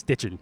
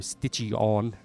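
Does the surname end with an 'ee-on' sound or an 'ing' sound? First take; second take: ing; ee-on. First: The name ends with an 'ing' sound. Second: The name ends with a separate 'ee-on' sound. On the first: The speaker calls it right. "It's just stitching, just plain old Baltimore stitching" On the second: The speaker calls it wrong. "people always go stitchy on because it's I-O-N"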